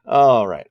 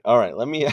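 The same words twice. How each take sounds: First: Laughing. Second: Said in the usual way. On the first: Real, not acted. Laughs while reading chat.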